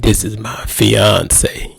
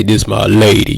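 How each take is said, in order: First: Slowly, "fiance" said with pride; proud stress on fiance. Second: Said in the usual way. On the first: Retold or imitated. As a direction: spell out "This is my fiance" slowly, leaning on "fiance". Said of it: "You said". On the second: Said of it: "you didn't say".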